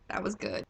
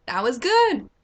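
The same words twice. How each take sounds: First: Deep creepy mutter. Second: Mock creepy satisfaction. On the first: Shown as a demonstration. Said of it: "repeat of the quote". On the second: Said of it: "and I'm just like".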